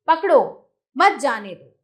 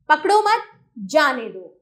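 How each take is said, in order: First: Louder पकड़ो, then a clear break before मत जाने दो; comma pause after पकड़ो. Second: Loud पकड़ो मत run together, break, then जाने दो; comma pause after मत. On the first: Teacher showing children how a comma changes meaning, pause after पकड़ो. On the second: Teacher showing children how a comma changes meaning, pause after मत. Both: Shown as a demonstration. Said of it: "अल्प विराम लगाने से वाक्य का अर्थ बदल गया".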